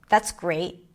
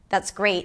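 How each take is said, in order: First: The voice is lower and harsher, slightly creaky. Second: The voice is flat with little pitch change. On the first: The speaker means the opposite. "when I was sarcastic, I went down. ... My voice was like a little harsher" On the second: The speaker does not care. "for the indifferent, ... Not a lot of pitch changes there"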